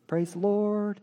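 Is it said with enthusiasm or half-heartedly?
half-heartedly. It is said in a distracted, half-hearted way.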